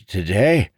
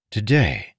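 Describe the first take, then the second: First: High, unsure beggar voice; hesitant old beggar. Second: Today said with a falling doubtful tune; Today repeated flatly in disbelief; mild surprise. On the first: Old beggar guessing an answer for Marin. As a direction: test the word, unsure. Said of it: "he said hesitantly". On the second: Marin doubting the beggar's answer. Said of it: "Marin asked". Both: A narrator's reading.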